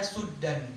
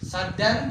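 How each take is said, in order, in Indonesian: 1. Vokal pertama adalah 'u' membulat. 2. Vokal pertama adalah 'a' terbuka. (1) "Suddan itu adalah qiraah Abi Amr yang biasa dibaca di Tarim" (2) "Saddan yaitu qiraah Hafs yang kita baca"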